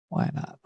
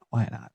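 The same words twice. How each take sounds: First: Whispered. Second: Said in the usual way. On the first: Real, not acted.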